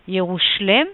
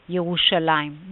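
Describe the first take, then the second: First: The name ends with the syllable 'em'. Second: The name ends with the syllables 'ayim'. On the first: This follows the Aramaic form of the name. "a different pronunciation uh, following the Aramaic pronunciation" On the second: This is the usual Hebrew reading of the name. "Both are to be read as Yerushalayim"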